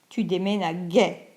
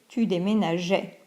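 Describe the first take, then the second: First: The g is hard, like in go. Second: The g is soft, like zh. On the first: The speaker calls it wrong. "sinon on prononce tu déménageais" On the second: The speaker calls it right. "on ajoute le E pour prononcer tu déménageais"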